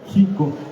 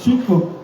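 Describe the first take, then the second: First: It begins with a throaty j sound. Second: It begins with a ch sound. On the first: "la X se pronunciaba como J también, entonces por eso algunas personas dicen Jico" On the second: "ch Chicotenga"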